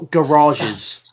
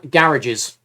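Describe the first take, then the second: First: It is said with an American pronunciation. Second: It is said with a British pronunciation.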